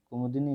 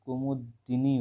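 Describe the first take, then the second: First: कुमुदनी run together with a light d; wrong form. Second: कुमुदिनी slowly, with a clear short di; correct form. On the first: Teacher rejects the spelling for students, wrong form. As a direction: say कुमुदनी quickly as one unit. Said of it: "कुमुदनी नहीं होता". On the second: Teacher corrects the vowel for students, correct form. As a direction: say कुमुदिनी broken as kumud, dinee. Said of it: "छोटी की मात्रा होगी". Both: Shown as a demonstration.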